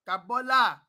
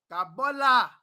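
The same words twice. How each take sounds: The two takes are said the same way.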